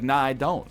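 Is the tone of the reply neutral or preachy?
neutral. The reply sounds casual and neutral. It is a simple refusal. "I said, I was like"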